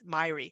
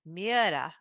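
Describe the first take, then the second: First: The name is said the American way. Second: The name is said the Norwegian way. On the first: "in the United States ... it's Myrie" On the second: "my Scandinavian friends, they've said it's pronounced Miera"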